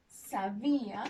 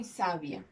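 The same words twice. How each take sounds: First: "Sabía" with stress on the middle syllable, sa-BÍ-a. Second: "sabia" stressed at the start, SA-bia; stress on first syllable. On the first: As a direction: lean on the í of "Sabía". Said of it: "esta palabra que tiene la rayita". ("Sabía" con la fuerza de voz en la í) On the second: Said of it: "Y esta segunda palabra". ("sabia" con la fuerza de voz en la primera sílaba) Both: Shown as a demonstration.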